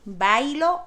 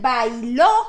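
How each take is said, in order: First: The stress is on the first syllable. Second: The stress is on the last syllable. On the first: The action happens in the present. "no tiene acento y estoy hablando en el presente" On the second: The action happened in the past. "el pretérito en primera y en tercera persona llevan acento"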